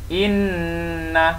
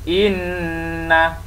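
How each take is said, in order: Both takes have the same delivery.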